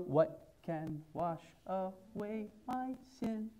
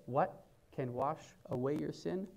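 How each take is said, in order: First: Slow, soft sung question; sung hymn line. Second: Said in the usual way. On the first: Acted. Pastor singing the hymn line before speaking it. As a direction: sing the hymn line softly. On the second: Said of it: "Hear this".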